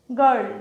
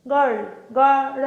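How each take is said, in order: First: Said in the usual way. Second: গার্ল slowly, then pulled apart as গা and রল; broken apart. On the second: Shown as a demonstration. Teacher showing students a wrong split, গার্ল broken apart. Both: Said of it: "এরম আলাদা আলাদা বলা যায় না".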